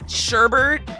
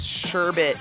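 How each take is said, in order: First: The second syllable has an r sound. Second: The second syllable has no r sound. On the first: The speaker calls it wrong. "I think is how I was taught to say it before I saw the word" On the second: The speaker calls it right. "that doesn't have an R there. I think it's sherbet"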